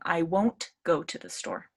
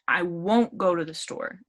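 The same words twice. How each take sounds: First: The T at the end of won't is pronounced. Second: The T at the end of won't is dropped.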